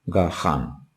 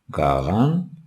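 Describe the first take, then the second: First: The middle consonant is a breathy h. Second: The middle consonant is a voiced throaty gh. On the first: The speaker calls it wrong. "bunu gahan olarak okuyalım" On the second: The speaker calls it right. "Önce doğru yazımı yazmışız"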